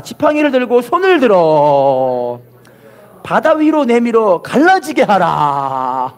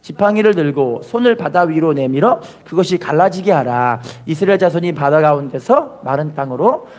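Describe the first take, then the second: First: Slow verse with long held endings; call-and-repeat proclamation. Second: Said in the usual way. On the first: Shown as a demonstration. Preacher has congregation repeat the verse, slow drawn-out proclamation. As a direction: stretch out the last syllables of 들어 and 하라. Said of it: "따라합시다". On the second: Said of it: "읽어보겠습니다".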